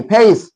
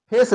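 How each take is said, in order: First: फेस with the vowel gliding from e to i; English-style FACE. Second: First फेस with a pure long e, no glide; Indian-style FACE. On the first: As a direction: say फेस as 'feys', drawn into a glide. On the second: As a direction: say फेस flat-vowelled, as 'fes'. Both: Shown as a demonstration. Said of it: "फेस नहीं, फेस".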